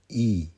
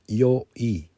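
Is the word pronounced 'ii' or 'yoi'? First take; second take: ii; yoi. First: The word is a long ee sound: ii. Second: The word begins with a y sound: yo-i. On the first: This is how the word is normally said. "ninety-nine percent of the time it is pronounced e" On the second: This is the official form of the word. "I just pronounced it yo-i"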